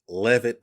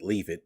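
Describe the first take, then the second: First: The name is said as Levitt. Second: The name is said as Leave It. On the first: "the lead designer's name is [name]" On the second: "I pronounce it Leave It"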